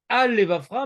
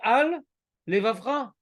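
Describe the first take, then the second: First: The two words run together without a break. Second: A small break separates the two words. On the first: The speaker calls it wrong. "tu ne dois pas dire" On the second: The speaker calls it right.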